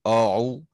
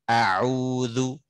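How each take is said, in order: First: The opening vowel is heavy and thick. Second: The opening vowel is thin and light. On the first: The speaker calls it wrong. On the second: The speaker calls it right.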